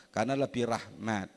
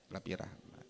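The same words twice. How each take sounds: First: Said in the usual way. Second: Quiet echo. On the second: Real, not acted.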